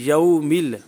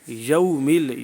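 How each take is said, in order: The two takes are said the same way.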